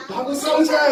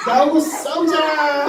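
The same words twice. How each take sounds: First: Quicker higher mock challenge; giant's challenge. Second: Slow, high, drawn-out challenge cry; giant's challenge. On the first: Teacher repeats the challenge line for the child, quicker mock shout. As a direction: toss the challenge out again. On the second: Teacher shows the Goliath actor how to shout, slow challenge. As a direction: stretch it out like a taunting giant. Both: Shown as a demonstration. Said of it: "하고 소리를 질러봐".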